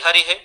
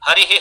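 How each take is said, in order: Both takes have the same delivery.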